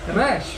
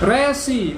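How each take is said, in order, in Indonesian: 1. Kata ini berakhir dengan bunyi 'sh' saja. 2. Kata ini berakhir dengan vokal 'ee' yang ditambahkan. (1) "wah bukan, resh" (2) "dulu murid saya juga gitu"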